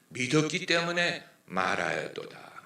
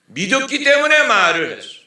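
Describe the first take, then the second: First: Said in the usual way. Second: The verse shouted high and loud from the pulpit; the preacher booms the verse back at full force; preaching shout. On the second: Acted. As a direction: hurl the words out to the congregation.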